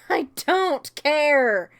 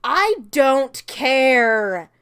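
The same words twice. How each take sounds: First: Slow laughing "I don't care"; amused slow "I don't care"; laughing dismissal. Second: "I don't care" drawn out slowly and loud; emphatic dismissal. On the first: Repeated with laugh. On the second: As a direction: spell out "I don't care" word by word. Dismissing romance plot. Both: Real, not acted.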